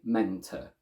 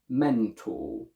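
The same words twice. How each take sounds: First: The second syllable has a schwa. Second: The second syllable has a full vowel. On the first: The speaker calls it wrong. "We don't say mentor" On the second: The speaker calls it right. "A couple of them are mentor"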